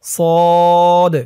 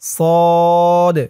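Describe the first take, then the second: The two takes are said the same way.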